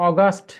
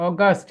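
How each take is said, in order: The two takes are said the same way.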